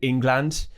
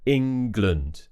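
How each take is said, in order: First: The last syllable has a full 'a' vowel. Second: The last syllable has a weak schwa vowel. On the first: The speaker calls it wrong. "the amount of times I've heard people say England" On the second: The speaker calls it right. "make sure you're saying Lund"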